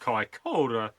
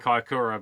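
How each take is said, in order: First: The name is said carefully, like a forecaster. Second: The name is said in the everyday familiar way. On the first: It sounds formal and official. "like a weather forecaster" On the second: Listeners will recognise the place. "keep saying Kaikoura because then people know where I'm talking about"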